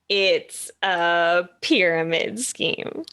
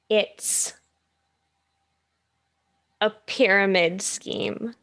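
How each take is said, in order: First: It is said at a faster pace. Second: It is said at a slower pace.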